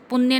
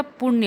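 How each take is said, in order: First: पुण्य with a dental n; wrong pronunciation. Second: पुण्य with retroflex ṇ; correct pronunciation. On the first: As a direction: say पुण्य as pun-nya, tongue at the teeth. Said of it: "पुण्य नहीं होता". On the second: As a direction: say पुण्य as puṇ-ya, tongue curled back. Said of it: "पुण्य होता है". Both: Shown as a demonstration.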